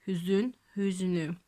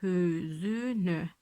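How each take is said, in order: First: Hüznü said in two syllables, ü dropped after z; right form hüznü. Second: Hüzünü stretched slowly, all three vowels kept, as the wrong form. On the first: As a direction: say hüznü crisply, no vowel between z and n. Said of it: "şöyle demiyoruz". (hüznü kelimesini iki hecede söyle) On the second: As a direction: drag out hüzünü syllable by syllable. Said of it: "şöyle demiyoruz değil mi". (hüzünü kelimesini yavaşça, üç heceyi de uzatarak söyle) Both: Shown as a demonstration.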